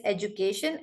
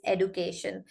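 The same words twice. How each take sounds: First: British "education" with a j in place of d; British pronunciation. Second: American "education" with a plain d; American pronunciation. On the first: Teacher contrasting two accents, British "education". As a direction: say "education" as "ej-u-cation". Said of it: "British accent is education". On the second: Teacher contrasting two accents, American "education" with d. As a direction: say "education" as "ed-u-cation". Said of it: "American accent is". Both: Shown as a demonstration.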